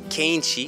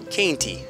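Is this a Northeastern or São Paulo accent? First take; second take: São Paulo; Northeastern. First: It is said in a São Paulo accent. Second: It is said in a Northeastern accent. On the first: "São Paulo"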